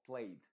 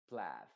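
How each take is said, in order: First: Plaid said like "played", with EY; long A, EY. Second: Plaid said "plad", with the A of cat; modified A, silent I. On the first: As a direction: mispronounce plaid with an EY vowel. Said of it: "Se debería pronunciar esto como played". (plaid como "played", con A original EY) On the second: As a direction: say plaid to rhyme with dad. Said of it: "se pronuncia con la A modificada". (plaid con A modificada, como "plad") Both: Shown as a demonstration.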